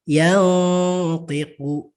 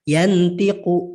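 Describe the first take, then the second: First: The n sound is faint and nasal. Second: The n sound is pronounced fully and clearly. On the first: "Maka dia samar" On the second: "Harusnya kan yantiqu"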